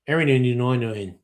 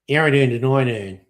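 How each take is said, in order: First: It is said in a broad Australian accent. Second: The same.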